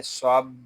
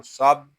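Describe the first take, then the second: First: सब pressed on a long b, then released; firmly held doubled b. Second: सब cut short on a plain final b; unheld single b. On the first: Teacher shows the shadda, सब with held, doubled b. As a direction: lean on the b of सब before letting go. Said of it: "इसको जमाओ के साथ अदा करेंगे". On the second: Teacher shows how not to read it, short unheld सब. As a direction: stop सब at once, no hold or release. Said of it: "ऐसे नहीं पढ़ेंगे". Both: Shown as a demonstration.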